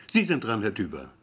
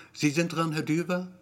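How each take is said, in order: First: Raised call dropping on "Herr Düber"; matter-of-fact summons. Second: "Sie sind dran, Herr Düber" held high as a question; high questioning echo, no final drop on "Herr Düber"; disbelieving echo. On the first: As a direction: announce "Herr Düber" with a firm falling end. Receptionist's summons, later echoed questioningly. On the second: Gero echoes summons in disbelief. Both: A narrator's reading.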